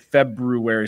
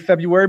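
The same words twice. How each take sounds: First: The word is said carefully, sounding out every letter. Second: The word is said in a casual, everyday way. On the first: This helps to spell the word correctly. "when I spell it, I'll say it February" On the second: This is how it is said in everyday speech. "always say February"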